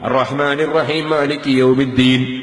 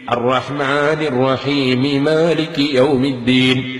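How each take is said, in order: First: The two m sounds merge into one. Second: The final m is voweled before the next m. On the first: The speaker calls it wrong. "ഒരു മീമ് നഷ്ടപ്പെട്ടു പോയി" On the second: The speaker calls it right. "മീമിന് കസ്റ് ചെയ്തിട്ട് മാലിക് യൗമിദ്ദീൻ എന്ന് എടുത്തു ഓതണം"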